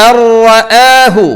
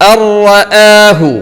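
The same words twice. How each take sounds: No difference in how they are said.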